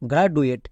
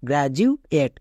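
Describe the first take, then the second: First: The middle consonant is a plain d sound. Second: The middle consonant is a j sound. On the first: The speaker calls it wrong. "একে উচ্চারণ করে গ্রাডুয়েট, গ্রাডুয়েট, কিন্তু এটা সম্পূর্ণ ভুল" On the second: The speaker calls it right. "এর উচ্চারণটা দাঁড়াবে গ্র্যাজুয়েট"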